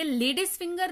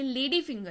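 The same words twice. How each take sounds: First: "लेडीज finger" with a Z or S sound closing the first word; wrong plural form. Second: "लेडी finger" with no S between the words; correct singular form. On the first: Teacher rejecting a common mistake, "लेडीज finger" with plural S sounded. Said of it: "ये लेडीज finger नहीं है". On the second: Teacher correcting learners, "लेडी finger" with no plural S. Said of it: "ये लेडी finger है". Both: Shown as a demonstration.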